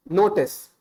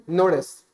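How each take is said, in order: First: "notice" said with a hard retroflex Indian T; Indian-accented "notice". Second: American-style "notice", T barely touched; American-accented "notice". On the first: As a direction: Indian English notice, crisp T. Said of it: "If I say the word notice in my, uh, strictly Indian accent". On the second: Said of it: "shift the enunciation just a little bit, like an American accent". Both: Shown as a demonstration.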